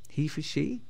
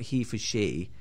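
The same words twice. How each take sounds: First: The voice rises at the end, like a question. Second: The voice falls at the end, like a statement. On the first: It is a question. The speaker calls it right. "It was a question" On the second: It is a statement. The speaker calls it wrong. "wasn't a statement"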